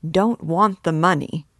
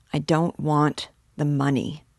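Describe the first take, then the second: First: Incredulous echo. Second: Understated refusal with pauses; listless refusal. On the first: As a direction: throw the words back, astonished. Friend echoes the refusal in disbelief. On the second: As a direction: refuse in a subdued, halting way. Sick man refuses the money. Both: A narrator's reading.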